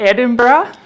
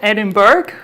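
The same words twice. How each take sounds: First: It uses the locals' pronunciation of the name. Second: It uses an outsider's pronunciation of the name. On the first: The speaker calls it right. "we pronounce it Edinburgh, right?" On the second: The speaker calls it wrong. "It's not Edinburgh"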